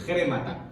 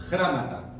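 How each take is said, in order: First: "Grémata" opened with a Spanish J sound, stressed E; like "remata" with a J before it, "Grémata" stressed on E; corrected Greek pronunciation. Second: "Grámata" with stressed A in the first syllable; mispronounced Greek word. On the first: Teacher demonstrating the Greek word, "Grémata" with initial J sound and stressed E. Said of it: "le ponemos una J antes". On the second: Teacher repeats the Greek word, mistaken pronunciation of "Grámata". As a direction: say "Grámata", A where E belongs. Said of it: "grémata, perdón". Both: Shown as a demonstration.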